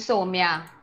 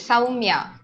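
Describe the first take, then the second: First: The first vowel is a plain o sound. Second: The first vowel sounds like the one in cow. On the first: The speaker calls it wrong. "it's not the right way" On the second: The speaker calls it right. "There is a U. ... C O W is cow, so S O U is sow"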